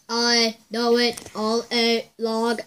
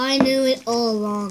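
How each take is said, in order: First: It is said in a robot voice. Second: It is said in a normal voice.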